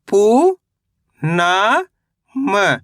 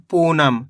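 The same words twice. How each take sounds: First: पू and ना long and rising, then short म; sound by sound. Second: Said in the usual way. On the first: Shown as a demonstration. Teacher breaking a word down for learners, syllable by syllable. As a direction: sound out पू ... ना ... म with pauses. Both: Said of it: "तो मिलके बन जाएगा".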